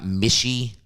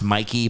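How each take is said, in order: First: The middle consonant is an sh sound. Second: The middle consonant is a k sound. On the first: The speaker calls it wrong. "not Mishi" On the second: The speaker calls it right. "It's pronounced Mikey"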